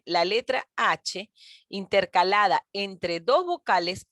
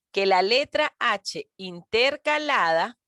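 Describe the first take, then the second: First: Said in the usual way. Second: Slow, drawn-out letra H intercalada, stretching letraa; slow emphasis. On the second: Shown as a demonstration. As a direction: spell out letra H intercalada slowly for students.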